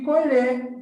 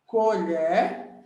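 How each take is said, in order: First: Colher said with closed ê, the verb, a little higher and louder; closed-vowel colher. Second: Colher said with open é, like the spoon, koʎɛr; open-vowel colher. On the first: Teacher showing the verb sense of colher, closed ê. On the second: Teacher showing the spoon sense of colher, open é. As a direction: say colher as the noun, ending in open é. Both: Shown as a demonstration. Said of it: "Só que a fonologia, o som, é diferente".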